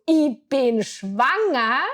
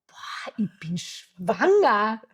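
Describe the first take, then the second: First: Slow, emphatic, a bit louder; slow announcement. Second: Slow, stunned, drawn out; stunned realization. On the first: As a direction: spell out the news to your partner. Verkündet es dem Partner. (langsam und betont, dem Alex verkündet) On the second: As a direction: let it sink in word by word. Realisiert allein die Schwangerschaft. (langsam und fassungslos, für sich allein) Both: Retold or imitated.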